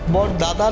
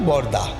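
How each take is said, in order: First: Both words are said in full. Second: A syllable is dropped, making one short word. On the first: "না বলে" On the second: "কিছু কিছু বর্ণকে বাদ দিয়ে বলি"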